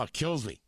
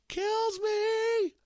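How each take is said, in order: First: Said in the usual way. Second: Very high, drawn-out falsetto. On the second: Shown as a demonstration. Host with a cold proving he can still hit the falsetto. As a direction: leap right up into a sustained falsetto. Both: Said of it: "I can hit the falsetto".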